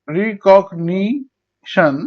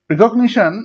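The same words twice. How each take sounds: First: recognition very slowly in four beats; long gaps between syllables of recognition. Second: Said in the usual way. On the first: Shown as a demonstration. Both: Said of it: "চার ভাগে".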